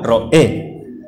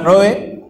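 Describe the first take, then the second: First: The stress falls on the final e. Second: The stress is not on the final e. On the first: The speaker calls it right. "sino la palabra Ro'eh. Como la para allá Re'eh" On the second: The speaker calls it wrong. "nunca ha sido la palabra Roe"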